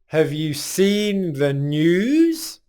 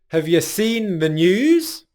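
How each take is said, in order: First: The phrase is said more slowly. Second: The phrase is said at normal speed.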